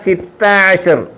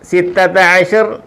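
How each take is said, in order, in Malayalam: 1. ആദ്യ വാക്കിൽ ഒരു അക്ഷരം കുറയുന്നു. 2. ആദ്യ വാക്ക് എല്ലാ അക്ഷരങ്ങളോടും കൂടിയാണ് പറയുന്നത്. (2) "അവിടെ സിത്തത്ത എന്ന് പറയത്തില്ല"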